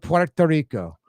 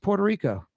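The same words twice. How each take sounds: First: It is said the Spanish way, rolled r. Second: It is said the English way, plain r. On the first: "if you're speaking Spanish, roll the tongue" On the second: "But if you're speaking English"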